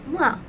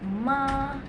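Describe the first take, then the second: First: The pitch falls sharply from high to low. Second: The pitch stays high and level. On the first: It means scold. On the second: It means mother.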